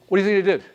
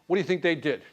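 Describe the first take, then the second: First: Pushing the question harder; louder insistent repeat. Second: Said in the usual way. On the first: Shown as a demonstration. Teacher pressing the class for an answer, louder. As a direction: say it again, louder, to make them answer.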